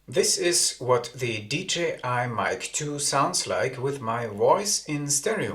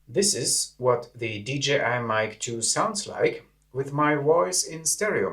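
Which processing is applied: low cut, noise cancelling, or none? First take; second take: low cut; noise cancelling. First: Low frequencies are filtered out of the sound. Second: Low end is cut and background noise suppressed. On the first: "The low cut filter has been activated" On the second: "The low cut filter and the noise cancelling function have been activated"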